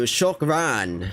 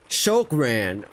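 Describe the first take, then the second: First: Shokran with a rounded o, shok-RAN; a learner echoes Shokran; learner repeating. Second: Shokran said slowly, shok-RAN, falling; Arabic word taught. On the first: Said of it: "Yeah, it means thank you". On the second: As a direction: teach Shokran carefully, syllable by syllable. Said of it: "It means please". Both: Shown as a demonstration.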